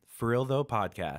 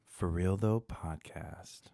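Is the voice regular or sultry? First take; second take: regular; sultry. First: It is said in a regular voice. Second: It is said in a sultry 'naked' voice.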